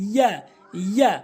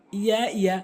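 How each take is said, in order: First: "ইয়া" firm, with a fuller vowel; correct pronunciation. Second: "ইয়া" quick and light; wrong pronunciation. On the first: Teacher models the Arabic letter, firm "ইয়া". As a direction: press and lengthen "ইয়া". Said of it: "সঠিক উচ্চারণ হচ্ছে". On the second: Teacher shows learners the mistake, quick "ইয়া". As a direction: say "ইয়া" short, twice. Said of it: "ভুল উচ্চারণ". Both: Shown as a demonstration.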